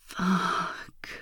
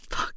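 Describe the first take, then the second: First: The word is said slowly and drawn out. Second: The word is said quickly and forcefully. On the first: "what if I say it slower? Like this" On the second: "what if I say it hard and fast?"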